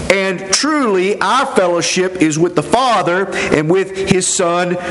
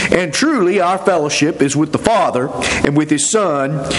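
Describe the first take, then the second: The two takes are said the same way.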